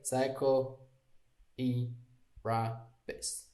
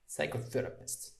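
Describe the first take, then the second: First: The word is split into separate parts. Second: The word flows as one unbroken unit. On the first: The speaker calls it wrong. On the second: The speaker calls it right. "it goes like one"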